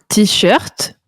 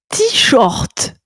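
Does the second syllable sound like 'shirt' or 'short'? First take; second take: shirt; short. First: The second syllable sounds like English 'shirt'. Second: The second syllable sounds like the word 'short'. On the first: "comme tout le monde" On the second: "comme un petit short?"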